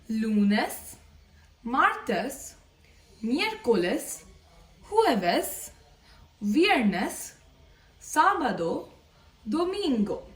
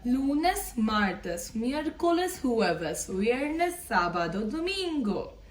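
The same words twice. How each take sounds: First: The days are said at a slower pace. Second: The days are said at a faster pace.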